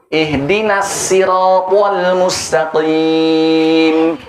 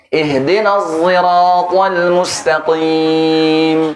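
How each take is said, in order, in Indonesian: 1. S pada sirat adalah s biasa yang ringan. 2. S pada sirat dilafalkan bercampur ke arah z. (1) "Sekarang dengan sin riwayat kumbul" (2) "ismam shad dengan zai"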